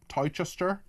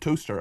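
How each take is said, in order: First: The name does not sound like toaster. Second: The name sounds just like toaster. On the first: The speaker calls it wrong. "I can't pronounce this" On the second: The speaker calls it right. "It's pronounced toaster"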